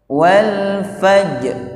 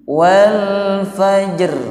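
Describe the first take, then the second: First: The final r is not sounded at all. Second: The final r is sounded with heavy exaggeration. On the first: "ra-nya tidak dibawa, juga keliru" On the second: "Jangan berlebih-lebihan. Contohnya begini"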